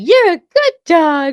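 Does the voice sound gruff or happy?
happy. It is said in a happy voice.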